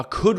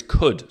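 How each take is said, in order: First: Said in the usual way. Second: Could said slower and leaned on; stress on could. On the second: Shown as a demonstration. Host stressing could to viewers, emphatic. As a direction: lean hard on the word could. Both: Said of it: "stress the word could".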